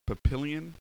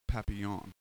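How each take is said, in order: First: It is said with a plain American pronunciation. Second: It is said with a French pronunciation. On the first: "it's pronounced Papillion" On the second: "Which means butterfly in French"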